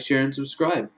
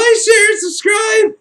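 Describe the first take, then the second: First: The phrase is said at a normal, calm volume. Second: The phrase is screamed loudly and urgently.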